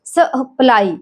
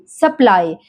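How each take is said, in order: First: सप्लाई broken as s-ə-ply; sounded out. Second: Said in the usual way. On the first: Shown as a demonstration. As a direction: sound out सप्लाई, isolating the schwa. (सप्लाई तोड़कर, शवा अलग करके) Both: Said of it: "शवा sound यानी अह sound".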